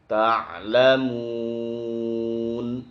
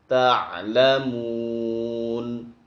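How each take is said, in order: No difference in how they are said.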